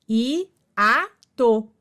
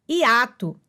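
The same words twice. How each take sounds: First: "i-a-to" said syllable by syllable; sílabas separadas. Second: Said in the usual way. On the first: Shown as a demonstration. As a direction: split "i-a-to" into three parts with short pauses. ("i-a-to" pausado, sílaba por sílaba) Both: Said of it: "duas vogais em sílabas separadas".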